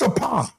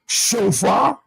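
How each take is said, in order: First: The middle consonant is a 'p' sound. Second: The middle consonant is an 'f' sound. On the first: The speaker calls it right. "P, not F" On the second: The speaker calls it wrong. "it's not shofar"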